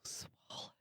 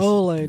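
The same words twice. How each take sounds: First: The word is said in a whisper. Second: The word is said in a normal voice.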